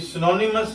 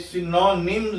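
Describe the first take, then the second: First: A vowel is added between 'm' and 's'. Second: The ending is a plain 'ms' with no vowel. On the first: The speaker calls it wrong. "ये सिनोनिमस नहीं है" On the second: The speaker calls it right. "ये सिनोनिम्स है"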